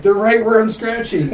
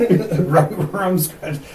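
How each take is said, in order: First: Much higher, louder mock-scared voice; spooked ghost hunter. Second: Slow, higher mock-scared voice; spooked ghost hunter. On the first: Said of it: "it was like". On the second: Replaying spooky video scene.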